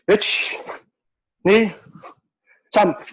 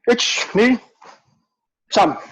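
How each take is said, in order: First: Three slow counts with even spacing. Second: Two quick counts, a pause, then one quick count. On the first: "Three counts slowly" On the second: "quick, quick, pause, quick"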